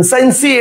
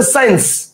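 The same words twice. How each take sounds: First: সায়েন্সি with an extra "ee" on the end; wrong pronunciation. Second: Said in the usual way. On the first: Shown as a demonstration. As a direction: say সায়েন্সি as sain-see, sounding the final e. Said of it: "এটা তো না". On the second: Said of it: "উচ্চারণ হচ্ছে সায়েন্স".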